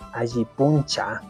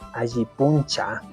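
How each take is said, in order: First: The second word is said with a 'ch' sound. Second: The second word is said with a 'ch' sound.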